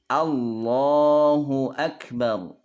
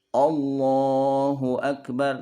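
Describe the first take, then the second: First: The first vowel is a full, open a. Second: The first vowel is coloured toward o. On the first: The speaker calls it right. "Maka harusnya dia A" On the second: The speaker calls it wrong. "itu A-nya jadi O, terpengaruh ke bunyi O"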